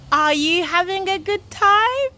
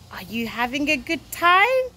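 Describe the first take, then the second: First: Higher, eager question; rousing repeat question. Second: Said in the usual way. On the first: Real, not acted. Presenter asking young viewers about their holidays, rousing.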